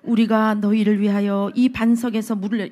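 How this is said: It is read in a polite, gentle tone.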